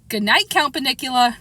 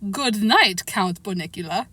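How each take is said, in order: First: It is said in a plain reading voice. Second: It is said in a put-on Transylvanian accent.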